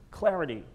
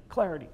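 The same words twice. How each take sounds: First: Said in the usual way. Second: Clarity as a clear accent; stressed clarity. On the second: Shown as a demonstration. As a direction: hit the word clarity cleanly. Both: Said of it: "the accents are clarity".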